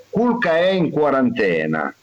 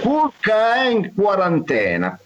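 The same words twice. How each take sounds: First: Said in the usual way. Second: Pitched up, announcing "Culca" with a lift; announced proverb. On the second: Shown as a demonstration. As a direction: present the proverb like a headline. (proverbio annunciato con tono alto) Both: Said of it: "proverb repeated".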